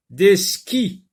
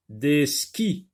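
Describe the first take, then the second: First: "skis" said higher and louder; emphatic word read. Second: Said in the usual way. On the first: Shown as a demonstration. Teacher announcing the word "skis" to the class.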